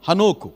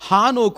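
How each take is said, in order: First: The stress is on the second syllable. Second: The stress is on the first syllable. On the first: The speaker calls it right. "హాకి ఒత్తు లేదు. నోకు ఉంది" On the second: The speaker calls it wrong. "హానోకు అంటున్నాం మనం"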